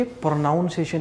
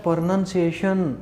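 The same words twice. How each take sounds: First: "प्रोनाउंसिएशन" as pro-noun-si-ation; wrong "ow" vowel. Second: "प्रोनंसिएशन" as pro-nun-si-ation; short "nun", not "noun", in "प्रोनंसिएशन"; teacher's model "प्रोनंसिएशन" with short U; correct short vowel. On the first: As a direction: put "noun" inside "प्रोनाउंसिएशन". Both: Shown as a demonstration. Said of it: "इसको हम बोलते हैं".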